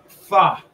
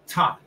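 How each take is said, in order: First: It starts with a soft breathy TH sound. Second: It starts with a plain hard T sound. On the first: The speaker calls it right. "This is pronounced correctly T H A" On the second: The speaker calls it wrong. "This is not pronounced ta"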